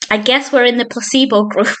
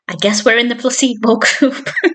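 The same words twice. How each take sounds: First: It is said without laughing. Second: It is said while laughing.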